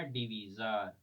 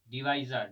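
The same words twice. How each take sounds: First: डिवीजर with a long "ee" in the middle; "vee" pronunciation. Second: डिवाइजर with an "eye" sound in the middle; "vai" pronunciation. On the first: (डिवीजर में बीच में लंबी "ई" बोलें) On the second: (डिवाइजर में बीच में "आइ" बोलें) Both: Shown as a demonstration. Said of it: "चलो pronunciation कोई बात नहीं".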